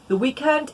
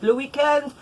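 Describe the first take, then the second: First: Said in the usual way. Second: Le weekend in a light French accent, luh wee-KEND. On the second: Shown as a demonstration. Knitter showing viewers Franglais, a light French Le weekend.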